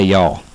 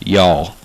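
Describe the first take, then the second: The two takes are said the same way.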